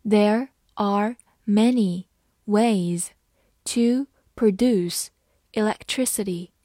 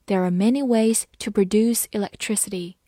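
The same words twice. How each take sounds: First: There are many ways read slowly in chunks. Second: Said in the usual way. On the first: Shown as a demonstration. Teacher slowly reading the sentence to students, phrase by phrase. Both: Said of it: "好，慢读一遍".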